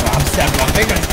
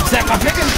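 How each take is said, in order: First: Said in the usual way. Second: Pitched up playful chant; high sing-song. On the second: Pretend. Playing Jets gang.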